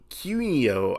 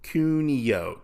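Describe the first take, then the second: First: "Kunio" fumbled as KYOO-no; mispronounced name. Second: "Kunio" carefully as KOO-nee-oh; corrected pronunciation. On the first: Reviewer stumbles over the character's name, "Kunio" as KYOO-no. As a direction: say "Kunio" with a y-glide after the K. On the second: Reviewer retries the character's name, "Kunio" as KOO-nee-oh. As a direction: say "Kunio" with a plain K, three syllables. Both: Shown as a demonstration. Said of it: "I can't even pronounce her name right".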